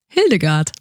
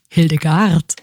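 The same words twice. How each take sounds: First: The stress is on the first syllable. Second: The stress is on the last syllable.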